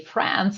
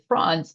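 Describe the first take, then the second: First: It is said with a plain English accent. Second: It is said with a French-influenced accent. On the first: "I don't say France" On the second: "I say France. It's just something I use from the French language"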